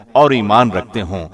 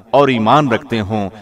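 No difference in how they are said.

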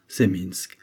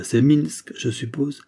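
First: Curt reply. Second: Doubtful question. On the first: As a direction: answer flatly and close the topic. Le prisonnier confirme sèchement. (le prisonnier confirme d'un ton plus bas) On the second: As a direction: question rising high at the end, voice raised. Le narrateur interroge le prisonnier. (c'est Minsk posé en question, ton montant) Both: Acted.

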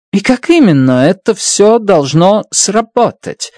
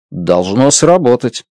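First: Higher, pressing question on «именно»; insistent. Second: Said in the usual way. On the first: A narrator's reading. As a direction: press hard for an answer, stressing «именно». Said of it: "настаивала Страт".

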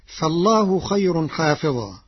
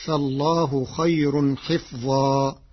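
First: حافظا with long aa after the h; usual reading with alif. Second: حفظا with i on h, vowelless f; slow, close the first syllable of حفظا as hif; Warsh's short i. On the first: Teacher cites the verse before changing it, long aa in حافظا. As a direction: open and lengthen the first vowel of حافظا. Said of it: "قرأ ورش كلمة حافظا". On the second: Teacher shows Warsh's reading, hif in حفظا. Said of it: "بكسر الحاء وسكون الفاء، فتصير". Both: Shown as a demonstration.

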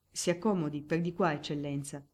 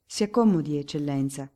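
First: Soft-ended, deferential usher; humble deference. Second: More formal tone. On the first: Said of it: "tono di umile ossequio". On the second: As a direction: offer the seat with official authority. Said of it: "con un tono più sostenuto". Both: A narrator's reading.

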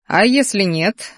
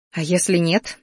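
First: Slow, drawn-out "А если нет"; teasing echo. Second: Cautious question, rising on "если"; held-breath question. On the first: Magister names his terms for the bet, teasing echo. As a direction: stretch each word, dangling the condition. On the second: Student asks magister about the bet, held-breath question. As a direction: ask it with restrained anticipation. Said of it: "затаила дыхание". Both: A narrator's reading.

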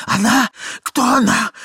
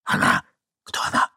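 First: High, loud startled questions; high-pitched, frantic exclamation; alarmed outcry. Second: Tense voiceless questioning; acted young man's whisper; urgent whisper. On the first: Acted. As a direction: blurt it out in alarm. Ivan cries out in alarm. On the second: A narrator's reading. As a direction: whisper a demand to know. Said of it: "прошептал молодой человек".

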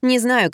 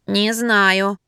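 First: Said in the usual way. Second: Hesitant, wavering answer; less confident. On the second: A narrator's reading. Wife answering a pleading caller, unsure. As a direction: admit it with confidence slipping. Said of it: "уже менее уверенно ответила я".

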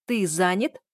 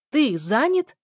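First: Rising question in a held-in voice; incredulous, not yet shouting. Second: High, loud incredulous question; shouting. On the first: Daughter echoing father's excuse, incredulous. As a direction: question it in disbelief before any shouting. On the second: Daughter to father claiming to be busy, shouting. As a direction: throw the question back at a shout, pitch rising. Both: A narrator's reading. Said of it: "Я уже кричала".

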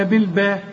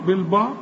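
First: بالباء with a thin, fronted final a; light ba. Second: بالباء with a dark, backed final a; heavy ba. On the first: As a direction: lighten the last syllable of بالباء, questioning rise. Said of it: "ولا بالباء". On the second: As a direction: thicken the last syllable of بالباء, questioning rise. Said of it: "ولا بالباء؟". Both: Shown as a demonstration.

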